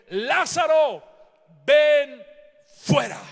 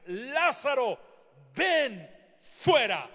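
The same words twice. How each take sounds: First: Full-force shout, much higher and louder. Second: Slow, louder prophetic command. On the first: Preacher's climax as Jesus commands Lázaro, full shout. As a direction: roar the command with all your voice. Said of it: "la declaración de Jesús fue". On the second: Preacher voicing Jesus at the tomb, firm loud command. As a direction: declare it with authority. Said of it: "Fíjate su oración". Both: Acted.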